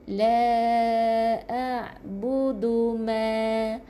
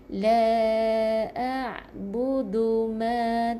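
The two takes are said the same way.

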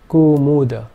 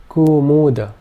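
First: The first two vowels are long. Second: The first two vowels are long.

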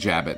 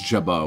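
First: The word ends with a clear T sound. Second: The word ends in a vowel, no T. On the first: The speaker calls it wrong. "We're doing Jabbit now" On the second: The speaker calls it right. "I think it's pronounced Jabo"

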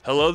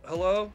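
First: It is said with enthusiasm and lively inflection. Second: It is said flat and half asleep. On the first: The caller is welcome and wanted. The speaker calls it right. "Little enthusiasm, voice inflection" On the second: The caller is not worth the effort. The speaker calls it wrong. "you picture someone in a Lazy Boy and they're kind of halfway asleep"

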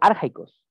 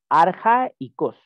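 First: The 'ai' is said as one gliding syllable. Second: The 'a' and 'i' are said as separate syllables. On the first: The speaker calls it wrong. "No decimos arjaicos" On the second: The speaker calls it right. "sino arjaicos. Es como decir arcaico"

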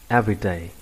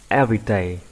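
The two takes are said the same way.

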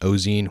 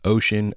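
First: It does not sound like the word ocean. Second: It sounds like the English word ocean. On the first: The speaker calls it wrong. "I've heard people say it that way so many times" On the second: The speaker calls it right. "I will always read it as Ocean because that just sounds like the better name"

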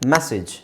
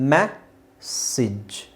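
First: The word is said at normal speed. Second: The word is said slowly.

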